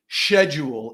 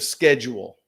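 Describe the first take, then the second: First: The word is said in a fancier way. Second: The word is said in an ordinary way.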